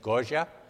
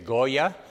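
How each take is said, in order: First: The name is said as locals in Argentina say it. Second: The name is said as English speakers say it. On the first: "The correct pronunciation in Argentina is Goya" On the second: "You would say Goya"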